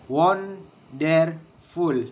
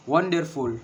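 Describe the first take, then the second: First: Wonderful drawn out very slowly as won-der-ful, first beat stressed; very slow, each syllable apart. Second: Said in the usual way. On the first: Shown as a demonstration. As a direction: spell wonderful out slowly in beats. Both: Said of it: "and three syllable".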